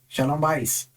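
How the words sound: The last word ends with an s sound.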